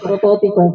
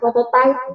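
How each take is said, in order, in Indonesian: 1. Kata ini diucapkan dengan bunyi bahasa Indonesia. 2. Kata ini diucapkan dengan bunyi bahasa Inggris. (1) "saya harus konsisten menggunakan prototipe" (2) "saya merasa selalu ingin tertarik untuk menggunakan prototype gitu"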